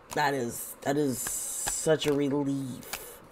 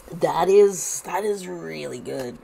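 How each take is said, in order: First: Softer, slower sigh of relief; relieved. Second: Said in the usual way. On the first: Real, not acted. Reading the cards for viewers, softer, slower and relieved. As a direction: let the relief settle into the words.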